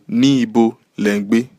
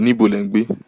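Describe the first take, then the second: First: The first two words are said separately. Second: The first two words blend into one.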